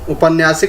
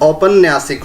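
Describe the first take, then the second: First: The first vowel is a short 'u' sound. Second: The first vowel is an 'au' sound. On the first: The speaker calls it wrong. "उपन्यासिक नहीं होता है" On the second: The speaker calls it right. "औपन्यासिक होता है, यानी कि ओ की मात्रा आती है"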